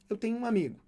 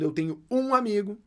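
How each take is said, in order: First: The word 'um' is unstressed. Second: The word 'um' is stressed. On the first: It simply mentions that a friend exists. "Simplesmente falando da existência de um amigo" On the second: It stresses the number of friends, exactly one. "Você não está enfatizando números"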